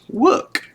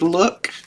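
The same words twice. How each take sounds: First: The word begins with a W sound. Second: The word begins with an L sound. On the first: "she would make her L sound like a W" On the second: "instead of look"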